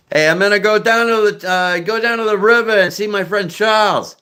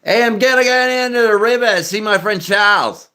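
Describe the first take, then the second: First: High-pitched Boston accent, R's dropped; hammed-up Boston accent. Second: High, broad Australian accent with bent vowels; hammed-up Australian accent. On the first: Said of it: "That's Boston accent". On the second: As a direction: do a broad Aussie, pitched way up. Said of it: "let's switch over to Australian". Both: Shown as a demonstration.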